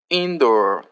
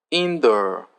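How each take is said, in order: Both takes have the same delivery.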